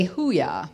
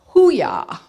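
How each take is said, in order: First: Said in the usual way. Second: Loud, high Navy hoo-yah; gung-ho Navy call. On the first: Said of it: "but they say". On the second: Retold or imitated. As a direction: call it like a sailor. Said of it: "Navy actually now says".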